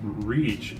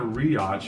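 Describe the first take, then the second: First: The vowel is a single long ee sound. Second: The vowel is split into two sounds. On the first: The speaker calls it right. "two vowels coming together to make one sound" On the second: The speaker calls it wrong. "this is not riach"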